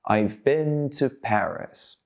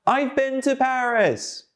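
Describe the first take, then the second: First: Slow, stretched-out model sentence; drawn-out, careful drill delivery; slowly. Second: High, projected, drawn-out call; big high-pitched loud drill voice; loudly. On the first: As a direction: say it slowly for learners to copy. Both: Shown as a demonstration.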